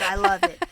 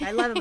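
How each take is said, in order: First: High, loud gleeful quote; mock delighted old man; imitating father-in-law. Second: Said in the usual way. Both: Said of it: "And he's like".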